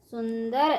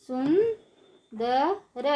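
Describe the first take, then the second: First: Said in the usual way. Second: सुंदर stretched slowly, syllable by syllable; slow syllable drill. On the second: Shown as a demonstration. Teacher drawing out सुंदर slowly for children. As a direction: draw out सुंदर for the class. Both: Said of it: "ऊंची आवाज़ में कैसे पढ़ेंगे".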